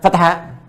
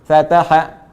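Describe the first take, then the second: First: The syllables have unequal lengths. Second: All three syllables have the same length. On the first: The speaker calls it wrong. "bukan fataha" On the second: The speaker calls it right. "tetap seirama antara baca fa, ta dengan ha, itu ukurannya sama"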